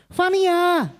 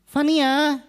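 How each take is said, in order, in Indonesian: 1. Namanya dipanggil dengan volume jauh lebih keras. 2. Namanya dipanggil sedikit lebih keras dari sebelumnya. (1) "tambahin lagi volumenya, dibesarin lagi" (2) "Kita naikkan volumenya sedikit lagi"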